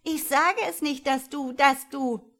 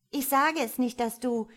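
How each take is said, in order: First: Put-on higher, louder singsong child's taunt, slowing at the end; jubelnd. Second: Put-on child's high, loud taunting glee; jubelnd. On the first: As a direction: crow gleefully, dragging out the teasing last words. (noch ausgelassener jubelndes Kind, hoch und laut) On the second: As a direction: crow it teasingly at a brother. (hoch und laut jubelndes Kind) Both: A narrator's reading. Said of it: "jubelte das Kind".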